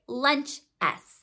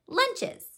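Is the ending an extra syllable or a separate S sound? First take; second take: separate S; extra syllable. First: The word ends with a separate, detached S sound. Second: The ending is pronounced as an extra syllable. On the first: The speaker calls it wrong. "We don't pronounce it lunch S" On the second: The speaker calls it right. "We pronounce it lunches"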